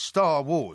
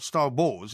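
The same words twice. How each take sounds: First: The stress falls on the first word. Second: The stress falls on the second word. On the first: The speaker calls it right. "the emphasis is on the first word" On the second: The speaker calls it wrong. "not Star Wars"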